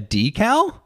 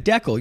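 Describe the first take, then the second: First: The word is said in the standard way. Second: The word is said in a local regional way. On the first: "Do you mean a decal?" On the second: "I have pronounced what I think you're referring to as Deckel. Which is a local colloquialism"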